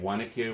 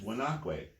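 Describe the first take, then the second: First: It is said with the local New Jersey pronunciation. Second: It is said with the native Lenape pronunciation. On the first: This is how local people mispronounce the name. The speaker calls it wrong. "people in New Jersey say Wanakwe when they're wrong" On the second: This is the original native form of the name. The speaker calls it right. "the native word is"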